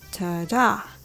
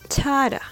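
First: The stress is on the second syllable. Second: The stress is on the first syllable. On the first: It marks the pattern of a verb. "When the stress is on the second syllable, it is the verb" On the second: It marks the pattern of a noun. "when the stress is on the first syllable, it is the noun"

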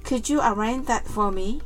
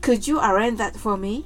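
The two takes are said the same way.

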